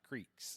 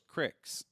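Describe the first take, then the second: First: The vowel is long, as in 'seek'. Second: The vowel is short, as in 'kick'. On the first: This is the way other people say it. "not creeks" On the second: This is the local Eastern Kentucky way of saying it. "We call those cricks"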